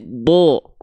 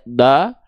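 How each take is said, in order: First: The vowel sounds like a full o. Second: The vowel sounds like a thin a. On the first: The speaker calls it right. "tapi do" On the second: The speaker calls it wrong. "tidak da"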